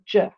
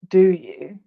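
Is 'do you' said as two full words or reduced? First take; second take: reduced; full. First: The two words blur into one short syllable. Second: Both words are said fully and separately. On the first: "It sounds like je" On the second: "rather than do you"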